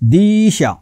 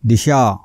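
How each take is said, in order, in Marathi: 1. पहिला स्वर दीर्घ आहे. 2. पहिला स्वर ह्रस्व आहे.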